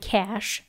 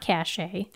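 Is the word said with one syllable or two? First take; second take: one; two. First: The word is said with one syllable. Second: The word is said with two syllables. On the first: The speaker calls it right. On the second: The speaker calls it wrong.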